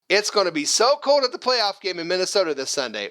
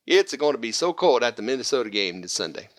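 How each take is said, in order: First: Said in the usual way. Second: Hammed-up Italian accent, pitched lower; lower-pitched mock Italian. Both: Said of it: "That was my Italian accent".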